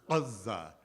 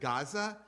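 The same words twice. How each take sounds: First: It starts with a heavy sound from the throat. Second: It starts with a plain English g sound.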